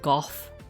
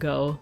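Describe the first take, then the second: First: The word ends with an f sound. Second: The word ends on a plain vowel sound. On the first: This is how people in Europe say it. "people in Europe, don't they pronounce it like Goff" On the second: This is how Americans say it. "we Bear Americans say Van Gogh"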